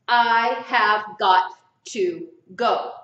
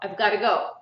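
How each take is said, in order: First: Every word is said fully and separately. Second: The words are contracted and run together.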